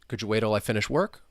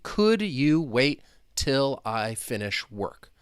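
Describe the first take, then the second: First: The words run together in connected speech. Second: Each word is said separately and distinctly. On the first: "But the way I was saying it" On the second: "I'll say each individual word so you can hear me"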